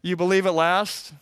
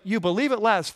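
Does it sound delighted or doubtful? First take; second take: doubtful; delighted. First: It sounds doubtful, like a skeptical question. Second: It sounds delighted, like an exclamation.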